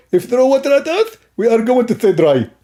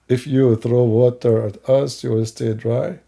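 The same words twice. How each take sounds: First: High, lisping put-on voice; comic opponent. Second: Slow, low, measured questioning; slow incredulous repeat. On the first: Opponent pitching waterproofing to the host, high lisping voice. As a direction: rise up high and silly, with a lisp. Acted opponent explains product. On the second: Acted. Host checking the opponent's claim, slow and deliberate. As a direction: repeat it back slowly in a lower voice.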